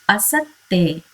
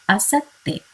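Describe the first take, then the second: Both takes have the same delivery.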